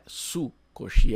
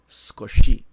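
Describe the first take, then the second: First: The u after the s is fully pronounced. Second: The u after the s is nearly silent. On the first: The speaker calls it wrong. "Cuidado para não falar sukoshi" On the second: The speaker calls it right. "É quase um S mudo"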